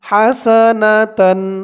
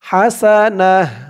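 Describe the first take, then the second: First: The word ends with a full tan sound. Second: The word ends with a soft h sound. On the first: The reading continues without a stop. "তা দুই জবর তান হাসানাতান" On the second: The reader stops at this word. "থামলে এখানে উচ্চারণটা হবে হাসানাহ"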